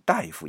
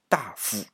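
First: It is read like the everyday word for doctor. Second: It is read in the official-title pronunciation. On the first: The speaker calls it wrong. "往往很多人都会读成大夫" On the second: The speaker calls it right. "但是其实在官职里边，那个就是大夫"

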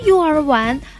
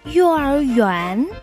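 First: The last syllable is pronounced 'wan'. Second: The last syllable is pronounced 'yuan'. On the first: The speaker calls it wrong. "我知道我说错了，不是幼儿玩" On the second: The speaker calls it right. "而是幼儿园"

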